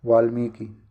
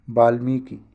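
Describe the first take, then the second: First: Said in the usual way. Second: वाल्मीकि begun with a b, as baalmiki. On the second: Shown as a demonstration. Teacher showing the mistake, b sound opening वाल्मीकि. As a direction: say वाल्मीकि with ba first. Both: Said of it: "वाल्मीकि में वा होगा".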